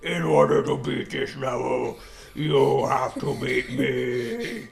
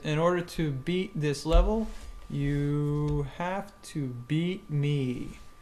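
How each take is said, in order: First: It is said in a put-on monster voice. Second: It is said in a normal voice.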